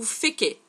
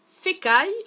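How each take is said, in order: First: The name ends with an 'ay' sound. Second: The name ends with an 'eye' sound. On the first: "On dirait plutôt Féquet" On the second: "Moi je dis Fécaille"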